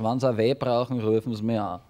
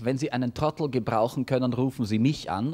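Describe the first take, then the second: First: It is said in Viennese dialect. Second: It is said in Standard German.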